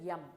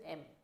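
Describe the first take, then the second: First: The letter name begins with a y sound. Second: The letter name begins with a plain vowel. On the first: The speaker calls it wrong. "Most of the people suddenly pronounce this as yum. Yum is not the correct pronunciation" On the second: The speaker calls it right. "so let's go with M"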